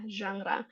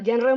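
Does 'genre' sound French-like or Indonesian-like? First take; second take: French-like; Indonesian-like. First: The word is said with a French-like sound. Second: The word is said with an Indonesian-like sound. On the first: "Seperti agak Prancis gitu ya" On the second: "pasti artis-artisnya bilang"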